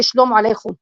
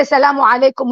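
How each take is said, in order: First: Aramaic pronunciation of "Shalom alaikum"; Aramaic greeting. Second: "Salamu alaikum" said the Arabic way, sa-LA-mu a-LAI-kum; Arabic pronunciation of "Salamu alaikum"; Arabic greeting. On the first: Guest gives the Aramaic form after the Arabic one, Aramaic pronunciation. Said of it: "we say". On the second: Guest sets the Arabic greeting against the Aramaic one, Arabic pronunciation. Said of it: "they say". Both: Shown as a demonstration.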